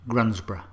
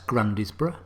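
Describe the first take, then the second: First: The middle syllable is dropped, making it shorter. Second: Every syllable is sounded, as it is written. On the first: The speaker calls it right. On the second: The speaker calls it wrong. "Isn't it clear that's Grundisborough? Nope"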